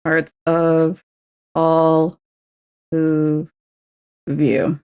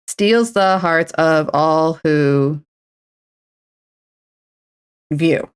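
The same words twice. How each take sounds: First: Slow, separated words; slow careful recount; word-by-word count. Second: Very slow drawn-out words; slow syllable count. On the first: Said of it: "There we go". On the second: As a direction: tap out each syllable. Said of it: "wait, did I just say". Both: Shown as a demonstration.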